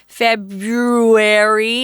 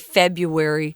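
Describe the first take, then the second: First: The first R sound is clearly pronounced. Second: The first R sound is left out. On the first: "February is hard to say" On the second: "Most of us just say February and we forget the R"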